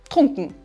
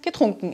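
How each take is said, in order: First: The word starts directly without a ge syllable. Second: The word begins with an audible ge syllable. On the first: This is the dialect form. "lassen wir G ganz weg und sagen nur trunken" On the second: This is the standard form. "im Standarddeutsch"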